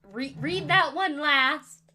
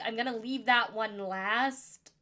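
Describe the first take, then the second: First: Emphatic self-correction, leaning hard on "read"; slow, louder fix with "read" drawn out; stress on read. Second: Said in the usual way. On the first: Real, not acted.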